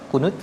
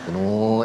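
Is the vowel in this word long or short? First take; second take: short; long. First: The vowel in the word is short. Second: The vowel in the word is drawn out long. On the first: "itu kunut pendek kan" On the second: "kalau kunut panjang kunut ya"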